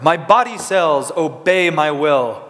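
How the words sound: It is said in a powerful, heroic voice. "like you were a superhero"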